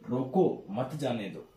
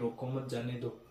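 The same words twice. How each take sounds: First: It is said with a pause inside. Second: It is said straight through without a pause.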